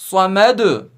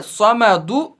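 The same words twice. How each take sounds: First: समद with the final dal stopped, no vowel; pausal reading. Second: समदु read with the final u sounded; full vowel ending. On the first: Teacher shows समद read with a stop on the last letter. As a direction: say समद as samad, cut off on the d. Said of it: "लेकिन पढ़ेंगे". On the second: Teacher reads समदु as written, full ending. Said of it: "लिखा है समदु". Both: Shown as a demonstration.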